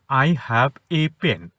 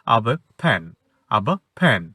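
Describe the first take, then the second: First: Slow "I have a pen", each word separate and weighted; every word stressed. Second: "of a fan" linked up, weight on the last word; conversational intonation. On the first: Teacher shows translation-style reading, every word stressed. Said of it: "প্রত্যেকটা শব্দকে গুরুত্ব দিয়ে বলি". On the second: Teacher shows conversational intonation, words linked. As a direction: run "of a fan" together as one phrase. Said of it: "intonation develop করতে হবে". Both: Shown as a demonstration.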